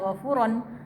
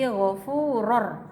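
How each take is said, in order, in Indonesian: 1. Kata ini diakhiri dengan bunyi n yang jelas. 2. Bunyi n melebur menjadi bunyi r yang dobel. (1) "tidak dibaca ghafuron" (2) "tapi ghafuror"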